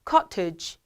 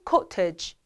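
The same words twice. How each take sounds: First: It is said in a British accent. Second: The same.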